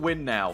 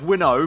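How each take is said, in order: First: The second syllable ends in an 'ow' vowel. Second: The second syllable ends in an 'oh' vowel. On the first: A joke that the team must win right now. The speaker calls it wrong. "just for the joke, I'll pronounce it Win Now" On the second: The actual sponsor name. The speaker calls it right. "it's pronounced Winnow"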